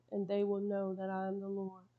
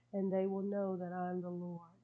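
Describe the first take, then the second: Both takes have the same delivery.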